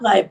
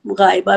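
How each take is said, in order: First: गायब ending on a closed b; two-syllable गायब, stopped on the final consonant; preferred form गायब. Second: गायबा with a long final aa; गायबा ending on -ba, as some say it; variant form गायबा. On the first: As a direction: say गायब with no vowel after the b. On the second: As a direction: say गायबा, adding an open vowel at the end. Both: Shown as a demonstration. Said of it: "लेकिन आप गायब बोलें".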